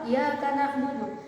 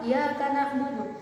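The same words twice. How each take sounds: First: The y sound in iyyaka is short and single. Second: The same.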